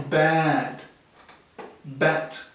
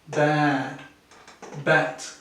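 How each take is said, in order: The two takes are said the same way.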